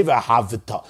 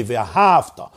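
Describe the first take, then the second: First: V'ahavita with a vowel between V and T; pronounced shva in v'ahavita. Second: V'ahavta slowly, V closing the syllable; no vowel after the V in v'ahavta; silent shva in v'ahavta. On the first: Teacher warning against a reading, voiced shva in v'ahavita. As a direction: give the shva its own syllable in v'ahavita. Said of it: "an emphatically pronounced shva". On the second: Teacher giving the right reading, silent shva in v'ahavta. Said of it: "The shva is a silent shva". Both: Shown as a demonstration.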